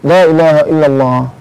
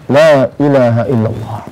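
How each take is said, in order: First: The phrase is said quickly. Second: The phrase is said slowly. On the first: "dengan cepat juga enak" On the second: "dengan pelan, nyaman"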